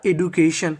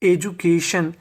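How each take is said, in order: First: The first part is said as 'ed-oo'. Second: The first part is said as 'ej-oo'. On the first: "एडू भी बोल सकते हैं" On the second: "आप चाहे तो इसे एजू भी बोल सकते हैं"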